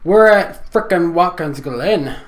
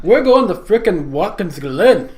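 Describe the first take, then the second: First: Put-on slow, loud, odd accent; silly put-on voice. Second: Loud goofy brogue attempt, higher; put-on Irish accent. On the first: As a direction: drawl it out in a goofy accent. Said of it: "That voice". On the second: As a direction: belt it in a bad Irish accent. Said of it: "do it for us one more time".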